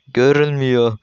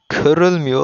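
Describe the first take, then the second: First: The word begins with a g sound. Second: The word begins with a k sound. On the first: The speaker calls it right. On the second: The speaker calls it wrong.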